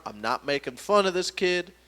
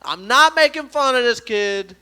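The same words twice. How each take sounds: First: Said in the usual way. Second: NOT punched high and loud; emphatic disclaimer. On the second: Real, not acted. Comedian defends his imitation to the audience, emphatic "not". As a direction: insist loudly, leaning on "not".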